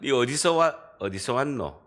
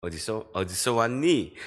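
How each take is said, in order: First: 경상도 말투로 툭 묻기, Gyeongsang dialect; 경상도 사투리. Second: Imitated Seoul standard speech; Seoul accent. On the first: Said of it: "사투리를 쓰니까". (경상도 사투리로 묻는 말투) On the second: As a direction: ask it the Seoul way, in standard Korean. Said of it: "이렇게 서울에서 이야기하면". (서울말로 묻는 말투) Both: Shown as a demonstration.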